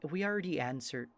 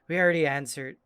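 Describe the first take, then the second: First: It is said in a put-on, Irish-tinged accent. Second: It is said in the speaker's normal voice.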